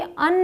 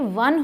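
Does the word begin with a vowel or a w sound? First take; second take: vowel; w sound. First: The word begins with a plain vowel sound. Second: The word begins with a w sound. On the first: The speaker calls it wrong. "ये अन नहीं होता" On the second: The speaker calls it right. "ये वन होता है ना"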